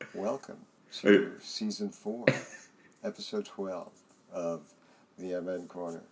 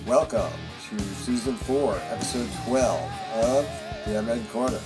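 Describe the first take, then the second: First: It is said in a put-on radio announcer voice. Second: It is said in a plain everyday voice.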